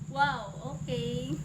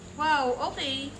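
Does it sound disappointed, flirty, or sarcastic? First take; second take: disappointed; sarcastic. First: It sounds disappointed. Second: It sounds sarcastic.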